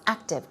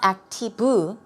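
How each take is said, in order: First: It ends cleanly on the final consonant sound. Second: An extra vowel sound is added at the end. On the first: The speaker calls it right. "We don't hear an u sound at the end, it's active, two syllables" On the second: The speaker calls it wrong. "it's not activu"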